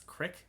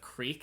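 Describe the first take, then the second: First: The vowel is a short i sound. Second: The vowel is a long ee sound. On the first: "it's crick" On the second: "instead of"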